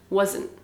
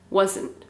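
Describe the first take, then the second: First: The final T sound is dropped. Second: The final T sound is dropped.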